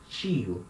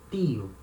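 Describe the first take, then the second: First: It begins with a ch sound. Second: It begins with a plain t sound. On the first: This is how people in Rio say it. "So here we say tio" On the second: This is how people in some other places say it. "In some places, people will say ti, tio"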